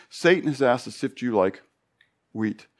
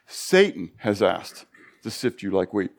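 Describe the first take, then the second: First: Said in the usual way. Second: Slower, weighty second take; slow emphatic repeat. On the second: Shown as a demonstration. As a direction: lean on every word, slowly.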